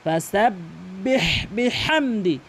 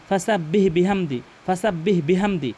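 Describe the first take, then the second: First: Slow ফাসাব্বিহ বিহামদি with strong breathy h; correct ha. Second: ফাসাব্বিহ বিহামদি without throaty friction; wrong ha. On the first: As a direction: rasp the h ending ফাসাব্বিহ and held. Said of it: "হার উচ্চারণ করতে হবে". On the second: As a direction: show faulty ফাসাব্বিহ, weak plain h. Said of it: "এভাবে অর্থ ঠিক থাকবে না". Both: Shown as a demonstration.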